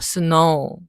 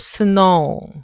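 First: The final oo sound is light and brief. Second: The final oo sound is full and strong. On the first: The speaker calls it right. "그래서 우를 살짝만 하라고 한 겁니다" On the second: The speaker calls it wrong. "스노우가 아니죠"

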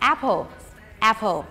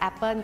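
First: The stress is on the first syllable. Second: The stress is on the second syllable. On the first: The speaker calls it right. "จะต้องมีการเน้นที่พยางค์แรกค่ะเพราะฉะนั้นจะอ่านได้ว่า" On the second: The speaker calls it wrong. "คนไทยส่วนมากมักจะออกว่า"

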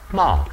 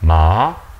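First: The pitch falls sharply from high to low. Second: The pitch rises from mid to high.

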